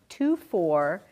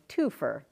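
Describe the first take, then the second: First: The two words are said separately and fully. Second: The two words are run together into one. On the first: The speaker calls it wrong. "it's not pronounced two four" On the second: The speaker calls it right. "it's pronounced the real Canadian way"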